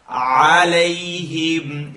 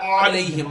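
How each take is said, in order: First: "عليهم" chanted, with the ayn lifted from the middle of the throat; correct alayhim. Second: Quick, clipped "عليهم" without the lift from the middle of the throat; a fast, cut-short "عليهم"; wrong alayhim. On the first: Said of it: "You're lifting it from the second part". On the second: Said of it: "not عليهم". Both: Shown as a demonstration.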